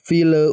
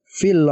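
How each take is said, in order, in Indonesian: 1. Bunyi l dilepas dengan memantul. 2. Bunyi l diucapkan dengan jelas dan bersih. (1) "jangan dipantulkan... Contohnya fil fil bukan" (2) "tapi dibaca jelas fil uqad"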